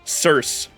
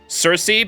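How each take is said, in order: First: The name is said like 'Circe'. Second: The name is said like 'Cersei'. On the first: The speaker calls it right. "It's just pronounced Circe" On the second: The speaker calls it wrong. "it's not pronounced Cersei"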